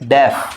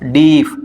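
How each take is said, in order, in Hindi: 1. स्वर छोटी 'e' ध्वनि है। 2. स्वर लंबी 'ee' ध्वनि है। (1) "लेकिन ये क्या होता है" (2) "बहुत से लोग इसको क्या बोलते हैं"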